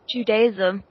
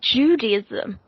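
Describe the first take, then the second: First: It is pronounced with a British accent. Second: It is pronounced with an American accent. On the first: "We pronounce it" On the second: "That's how the Americans pronounce it"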